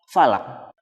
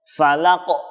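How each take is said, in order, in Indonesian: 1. Huruf q di akhir tidak terdengar pelepasannya. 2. Huruf q di akhir dilepaskan dengan hentakan keras. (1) "tidak terdengar bunyi pantulannya" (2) "jadi langsung ditekan di ujungnya"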